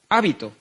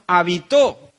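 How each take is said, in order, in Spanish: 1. El acento no está en la última sílaba. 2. El acento está en la última sílaba.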